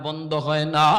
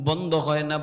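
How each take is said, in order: The two takes are said the same way.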